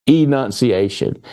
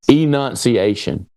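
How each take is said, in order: No difference in how they are said.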